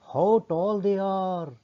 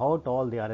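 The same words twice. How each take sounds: First: High, long-drawn exclamation of wonder; amazed. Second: Said in the usual way. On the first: Shown as a demonstration. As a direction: marvel aloud, stretching every word. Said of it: "ਇਹ ਗੱਲ ਹੈਰਾਨੀ ਨਾਲ ਕਹਿ ਰਿਹਾ ਹੈ".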